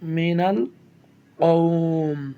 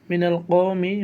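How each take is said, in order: First: The phrase ends on a consonant, vowel dropped. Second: The phrase ends on a final short vowel.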